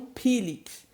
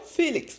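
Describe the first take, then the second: First: The name begins with a P sound. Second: The name begins with an F sound.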